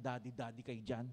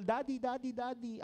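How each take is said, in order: First: Lower, softer, sarcastic muttered echo; mock them under your breath; jealous son mocking the youths in his head; sulky inner mockery. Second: Put-on higher, eager calls of young churchgoers; youth calling daddy. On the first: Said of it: "Ako naman". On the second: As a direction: mimic youths fawning over him. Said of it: "pinapalibutan ng mga young people".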